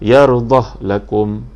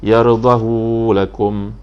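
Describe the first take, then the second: First: There is no vowel after the h. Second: The vowel after the h is long. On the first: "dibaca dengan yardah lakum, diwakafkan" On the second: "Isba' maknanya dipanjangkan, sini ada mat"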